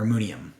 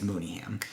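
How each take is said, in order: First: "Mooneyham" slurred into moony-um, no h; run-together pronunciation. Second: "Mooneyham" with a full, separate ham at the end; careful name pronunciation. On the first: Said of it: "Maybe it's runs together". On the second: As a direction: say "Mooneyham" as moony plus ham. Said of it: "I think it's Mooneyham". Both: Shown as a demonstration.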